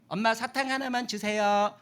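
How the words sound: The request is said in a whiny, demanding way. The child is throwing a tantrum to get candy. The speaker calls it wrong. "떼쓰면 안 돼. 이렇게 하면 안 돼"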